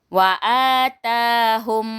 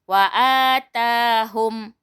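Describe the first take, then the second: Both takes have the same delivery.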